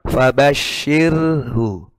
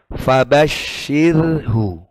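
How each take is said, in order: Both takes have the same delivery.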